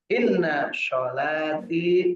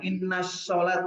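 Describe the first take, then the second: First: The second word ends with a final i vowel. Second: The second word ends without the final vowel. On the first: The speaker calls it right. "kita membaca inna sholati" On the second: The speaker calls it wrong. "bukan inna sholat"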